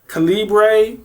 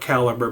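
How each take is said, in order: First: The name ends like the word libre. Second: The name ends like the word caliber. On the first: The speaker calls it right. "I'm going with Libre" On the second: The speaker calls it wrong. "some people call it Caliber, but I don't pronounce it that way"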